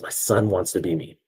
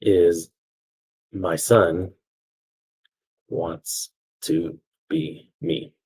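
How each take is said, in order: First: Said in the usual way. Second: Very slow, word by word; long pauses as if writing it down; dictating. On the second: Real, not acted. Teacher writing out the story's conclusion, slow dictation.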